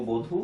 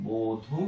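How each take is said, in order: First: Said in the usual way. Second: বধূ slowly as "bo-dhu"; soft, drawn-out বধূ with a long o; careful pronunciation demo. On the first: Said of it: "তারপর হলো বধূ". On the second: Shown as a demonstration. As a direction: stretch both syllables of বধূ. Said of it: "উ ধ্বনি, তারপর দীর্ঘ বধূ".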